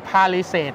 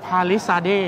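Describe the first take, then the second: First: Palisade said as "pha-li-set", clipped short end; mistaken pronunciation. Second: Palisade said slowly as "pha-li-sade", full long end; corrected pronunciation. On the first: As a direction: say Palisade the wrong way, ending "set". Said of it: "ผมเข้าใจว่า เขาเรียกว่า". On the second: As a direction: say Palisade the right way, slow and careful. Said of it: "แต่จริงๆ คือ". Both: Shown as a demonstration.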